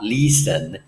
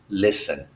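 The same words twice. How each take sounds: First: The first vowel is a long I sound. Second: The first vowel is a short I sound. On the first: The speaker calls it wrong. "It is not a long I sound" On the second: The speaker calls it right. "the I is a short I sound"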